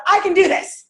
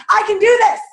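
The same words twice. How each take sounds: First: Loud, higher, upbeat declaration; energetic affirmation. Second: Louder and higher, pushing the crowd on; louder affirmation. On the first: Leading the audience in a loud affirmation. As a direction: lead the crowd in saying it. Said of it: "I want you all to say out loud". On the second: After calling the first try lame, a louder affirmation. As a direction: belt it out to show them how. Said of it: "Okay, that was lame". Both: Shown as a demonstration.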